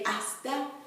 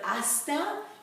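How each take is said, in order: First: The s is barely pronounced. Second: The s is clearly pronounced. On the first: The speaker calls it right. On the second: The speaker calls it wrong.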